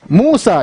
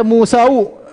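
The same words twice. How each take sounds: First: "Musa" ending cleanly on a; long u, then plain final a in "Musa"; correct unchanged ending. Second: "Musau" with an added final u; wrong u ending. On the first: ("Musa" berakhir bunyi a saja) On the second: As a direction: tack a u onto the a in "Musau". ("Musau" dengan tambahan u di akhir) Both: Shown as a demonstration. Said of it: "jangan dibaca Musau".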